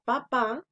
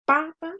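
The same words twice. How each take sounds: First: Papá with the voice landing on the final syllable, pa-PÁ; stress on last syllable. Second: Papa with a strong first syllable, PA-pa; stress on first syllable. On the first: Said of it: "es en la última". (papá con fuerza en la última sílaba, pa-PÁ) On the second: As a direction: lean hard on the first PA in papa. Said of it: "en la primera sílaba pa". (papa con fuerza en la primera sílaba, PA-pa) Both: Shown as a demonstration.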